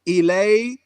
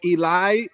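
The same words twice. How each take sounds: First: It is pronounced like 'allay'. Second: It is pronounced like 'ee-lie'. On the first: "You said allay, what it says" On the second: "and then you said or Eli"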